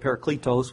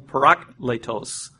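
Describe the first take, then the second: First: The stress is not on the second syllable. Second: The stress is on the second syllable. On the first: The speaker calls it wrong. "which is not the pronunciation whatsoever" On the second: The speaker calls it right. "It's the emphasis on the second syllable"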